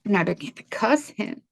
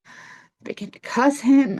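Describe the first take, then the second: First: Said in the usual way. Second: "I began to cuss him" said again, higher and slower, leaning on "him"; emphatic repeat. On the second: Real, not acted. Recalling her rage at the cab driver, repeated slowly and higher.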